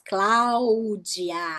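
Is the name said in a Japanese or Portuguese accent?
Portuguese. It is said with Portuguese sounds and vowels. "Em português, a gente fala todas as vogais"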